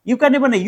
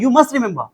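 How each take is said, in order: First: Said in the usual way. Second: Must hit firmly as the correction; stress on must. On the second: Shown as a demonstration. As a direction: punch must, the word that matters. (must पर ज़ोर)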